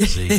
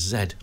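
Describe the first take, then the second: First: The letter is said the American way, as zee. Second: The letter is said the British way, as zed.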